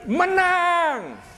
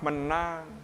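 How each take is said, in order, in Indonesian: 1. Kata itu diteriakkan keras dengan penuh kegembiraan. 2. Kata itu diucapkan pelan tanpa kegembiraan. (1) "orang berteriak" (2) "Tidak, saudara-saudara"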